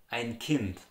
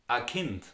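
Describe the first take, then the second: First: "ein Kind" with full ein; standard German. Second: "a Kind" with bare ah for ein; Austrian dialect. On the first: Teacher giving the standard form, full "ein Kind". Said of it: "So in the Standard German". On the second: Teacher modelling dialect, "a Kind". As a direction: open "a" before softly said "Kind". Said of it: "In the Austrian dialect". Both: Shown as a demonstration.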